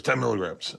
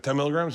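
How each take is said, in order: First: Said in the usual way. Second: Lightly queried "Ten milligrams"; questioning echo. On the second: Retold or imitated.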